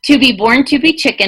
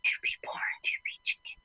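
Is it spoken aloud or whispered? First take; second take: aloud; whispered. First: It is spoken in a normal voice. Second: It is spoken in a whisper.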